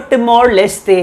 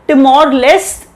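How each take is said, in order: First: Leste ends with an added vowel sound. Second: Leste ends in a bare t sound. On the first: This is how locals say it in Portuguese. "जैसे locals pronounce करते हैं Portuguese pronunciation" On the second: This is how it is said in English. "English में बोला जाता है"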